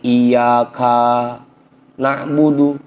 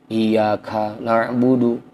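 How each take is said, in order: First: The vowel after the k is drawn out long. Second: The vowel after the k is kept short. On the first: The speaker calls it wrong. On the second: The speaker calls it right.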